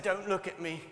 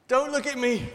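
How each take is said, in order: First: Said in the usual way. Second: Don't hit higher and louder; insistent, stress on Don't. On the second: Acted. Leper insisting passersby not look, stress on Don't. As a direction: punch the word Don't to insist. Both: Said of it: "Don't, I said".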